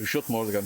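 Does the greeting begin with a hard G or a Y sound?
Y sound. The greeting begins with a Y sound. This is how Berliners say it. "it's like"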